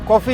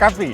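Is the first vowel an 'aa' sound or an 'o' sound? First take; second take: o; aa. First: The first vowel is a rounded 'o' sound. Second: The first vowel is an open 'aa' sound. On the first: This is how the younger people say it. "मतलब कॉफ़ी या काफ़ी" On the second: This is how the older people say it. "मतलब कॉफ़ी या काफ़ी"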